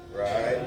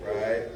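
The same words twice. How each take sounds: The two takes are said the same way.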